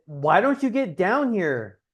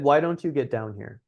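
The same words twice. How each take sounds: First: "don't" leaned on hard and drawn out, slow and accusing; "Why DON'T you get down here" with a falling, pushy tune; stress on DON'T. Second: "why" gets the weight and the rest stays easy; "WHY don't you get down here" as a casual, light ask; stress on WHY. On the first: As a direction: hit "don't" like a reproach, as if she should have come already. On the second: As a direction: open the line on "why" as a friendly invitation. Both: Retold or imitated. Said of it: "Big difference".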